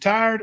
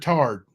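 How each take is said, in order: First: The vowel is a full 'eye' glide. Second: The vowel sounds like 'ar', as in tarred.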